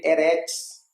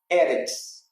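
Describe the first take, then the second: First: "eretz" stressed on the final syllable, e-RETZ; last-syllable stress. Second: "eretz" stressed on the first syllable, E-retz. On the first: Teacher showing a reading without Masoretic points, last-syllable stress. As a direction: misread "eretz" with the weight on its end. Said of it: "está no final". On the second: Teacher giving the Hebrew word for earth, first-syllable stress. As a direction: say "eretz" with the weight on the opening E. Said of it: "com a sílaba tônica na primeira". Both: Shown as a demonstration.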